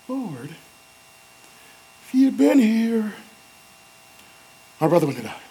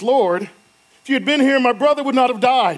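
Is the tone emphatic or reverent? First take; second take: reverent; emphatic. First: It is said softly and reverently. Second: It is said forcefully and emphatically.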